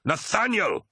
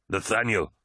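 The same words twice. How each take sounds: First: Very high, exasperated yell; frustrated scream. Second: Mild cry of relief; relieved cry. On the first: Tarvitz to his doubting honor brother, screaming in frustration. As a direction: cry the name out, pitched right up. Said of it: "screamed Tarvitz in frustration". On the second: Tarvitz recognizing his honor brother's voice, crying out mildly. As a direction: call the name out, relieved. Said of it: "he cried". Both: A narrator's reading.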